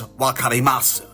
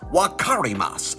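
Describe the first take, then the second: First: The r sounds close to a light D. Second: The r sounds like an English R. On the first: The speaker calls it right. "it rolls more on your tongue like a D" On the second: The speaker calls it wrong.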